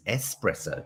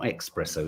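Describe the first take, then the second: First: ESPRESSO said "ess-presso", low and soft; correct espresso. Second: ESPRESSO said "ex-presso", softly; wrong espresso. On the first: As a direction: say espresso with a clean S, no K. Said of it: "It's espresso". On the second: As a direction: say espresso with a K before the S. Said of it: "It's not espresso". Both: Shown as a demonstration.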